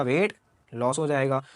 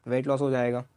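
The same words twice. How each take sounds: First: वेट लॉस हो जाएगा said slowly, leaning on वेट; slow emphatic answer. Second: Said in the usual way. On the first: Shown as a demonstration. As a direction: spell out वेट लॉस deliberately for the class. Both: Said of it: "क्या हो जाएगा?".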